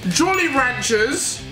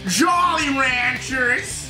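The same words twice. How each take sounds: First: It is said in a non-American accent. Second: It is said in an American accent.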